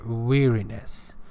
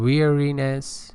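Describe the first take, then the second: First: The word is said in an American accent. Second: The word is said in a British accent. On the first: "American pronunciation" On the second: "British pronunciation"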